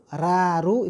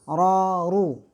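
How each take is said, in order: First: The r is light, with a bright vowel. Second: The r is heavy, with a dark vowel.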